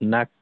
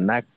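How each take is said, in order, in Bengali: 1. শব্দাংশটি একটি স্পষ্ট k স্টপে শেষ হয়। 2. শব্দাংশটি একটি স্পষ্ট k স্টপে শেষ হয়।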